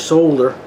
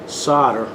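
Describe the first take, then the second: First: It is said the way English speakers say it. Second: It is said in the speaker's own American way.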